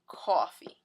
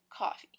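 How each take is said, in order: First: The first vowel is a rounded aw sound. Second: The first vowel is not an aw sound. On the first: This is how people from the Jersey Shore say it. "I'm actually from the Jersey Shore, so we don't say coffee this way. We actually say like this" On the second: This is how people from other US regions say it. "other regions in the U S where they might say"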